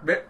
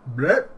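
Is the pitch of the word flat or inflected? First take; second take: flat; inflected. First: The word is said on a flat pitch. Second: The word has a lively pitch inflection.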